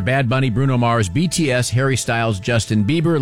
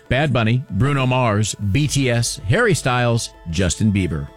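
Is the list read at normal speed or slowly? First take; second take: normal speed; slowly. First: The names are read at normal speed. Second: The names are read a little slower.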